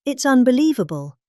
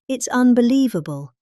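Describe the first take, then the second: No difference in how they are said.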